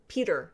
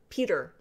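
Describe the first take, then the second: First: The name sounds like the English 'Peter'. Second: The name sounds like the English 'Peter'.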